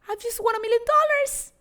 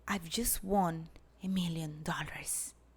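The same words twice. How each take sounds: First: It is said fast and excitedly. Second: It is said slowly and calmly.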